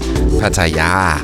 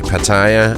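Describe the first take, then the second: First: The name is said the Thai way. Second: The name is said the Danish way. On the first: "the Thai people themselves say" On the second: "we Danes say"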